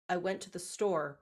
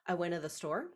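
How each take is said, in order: First: Every word, including the small ones, is said clearly. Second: The small words are shortened and slurred together. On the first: "if you say the sentence" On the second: "as if you were talking to somebody in conversation"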